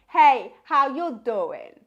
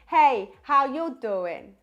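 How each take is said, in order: First: The voice sounds warm, round and balanced. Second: The voice sounds warm, round and balanced.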